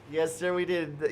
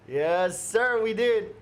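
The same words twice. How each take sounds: First: Said in the usual way. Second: Sir, we did, with "did" punched up high; bright emphatic. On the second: Real, not acted. Streamer echoing a chat joke, punchy and up high. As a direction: land "did" high and loud.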